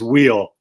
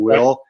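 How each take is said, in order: First: It is said with a long 'ee' vowel. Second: It is said with a short vowel, like 'will'. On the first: "but it's wheel" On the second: "they have a little different accent, so it sounds like they're saying will"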